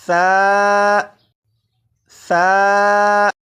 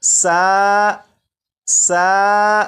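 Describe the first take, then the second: First: ثا said softly, with no whistling hiss; ثا with a soft th, no sibilant; ثا without the whistle sound. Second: سا with a sharp hissing s; wrong, hissing سا; whistled سا. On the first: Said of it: "ثا کو میں نے نرمی سے پڑھا". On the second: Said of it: "سی ٹی کی آواز کے ساتھ پڑھوں گا". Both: Shown as a demonstration.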